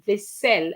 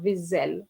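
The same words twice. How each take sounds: First: The middle consonant is a hissing S sound. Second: The middle consonant is a buzzing Z sound. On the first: The speaker calls it right. "the pronunciation of that word is vaisselle" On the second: The speaker calls it wrong. "and not vaisselle"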